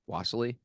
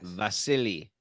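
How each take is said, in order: First: The name begins with a W sound. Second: The name begins with a V sound.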